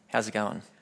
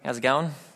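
First: It sounds like an aggressive, challenging greeting. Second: It sounds like a friendly, casual greeting.

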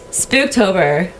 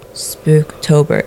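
First: The word is said with lively, bouncy energy. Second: The word is said flatly, with little energy. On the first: The speaker calls it right. "put a little bit more pip in it" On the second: The speaker calls it wrong. "It's not Spooktober"

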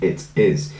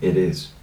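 First: The T at the end of 'it' is pronounced. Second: The T at the end of 'it' is dropped. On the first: The speaker calls it right. "It should be it is" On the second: The speaker calls it wrong. "I took the T out"

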